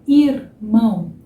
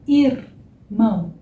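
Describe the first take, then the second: The two takes are said the same way.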